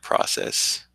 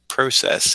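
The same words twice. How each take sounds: First: Process is said with a non-Canadian pronunciation. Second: Process is said with a Canadian pronunciation. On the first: "which is how I would normally say it" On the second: "my pronunciation of process"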